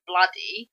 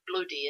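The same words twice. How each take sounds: First: It is said in a southern English way. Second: It is said in a non-southern English way. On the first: The speaker calls it right. "as we say down here in the south" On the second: The speaker calls it wrong. "he's still saying bloody"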